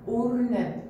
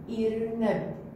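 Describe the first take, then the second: First: The word begins with the vowel u. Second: The word begins with the vowel i. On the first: "وإذا اختارينا حرف الألف عليه الضمة راح يصير أو" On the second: "إذا اختارينا حرف الألف جوه كسرة ايش راح يصير؟ إي"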